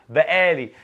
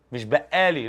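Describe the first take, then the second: First: بقالي said slowly and a touch louder, as the right version; slow, deliberate بقالي that corrects the first take; correct pronunciation. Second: بقالي said the wrong way, as the rejected version; a quick first take of بقالي, marked as wrong; wrong pronunciation. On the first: Teacher giving students the corrected بقالي, slow and deliberate. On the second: Teacher showing students the wrong way to say بقالي. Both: Shown as a demonstration. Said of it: "لأ، بقالي".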